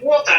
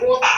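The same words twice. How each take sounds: First: WATER with the final R sounded. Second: WATER ending in an open "ah", no R; Australian pronunciation. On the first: Contrasting the standard word for learners, WATER with R sounded. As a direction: say WATER ending in a clear R. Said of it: "instead of water, they say water". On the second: Showing how Australians say it, WATER as "wo-tah". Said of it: "for Australian, because I learn". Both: Shown as a demonstration.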